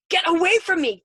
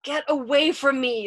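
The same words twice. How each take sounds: First: High, very loud shout; frantic scream. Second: Raised, anguished plea; pleading. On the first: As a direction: scream to drive him away. Punching him, driving him away. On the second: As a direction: beg him, short of a scream. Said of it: "pleading with him now". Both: A narrator's reading.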